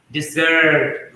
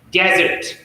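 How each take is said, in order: First: DeSERT, second syllable stressed; verb stress. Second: DESert, first syllable stressed; noun stress. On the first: Teacher showing the verb, stress on second syllable. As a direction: hit the second syllable, slowly. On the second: Teacher showing the noun, stress on first syllable. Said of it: "if it is noun, it will be stressed differently". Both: Shown as a demonstration.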